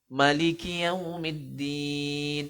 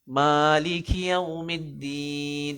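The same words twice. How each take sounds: First: The first vowel is kept short. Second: The first vowel is held long. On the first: "qiraat lain membaca pendek" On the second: "maknanya panjang"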